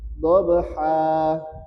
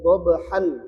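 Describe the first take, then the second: First: The word ends with a lengthened a vowel. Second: The word ends with an n sound. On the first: The reciter stops at this word. "kalau kita waqaf, maka tanwinnya digantikan dengan mad" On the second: The reciter continues without stopping. "asalnya wal 'adiyati dhabhan"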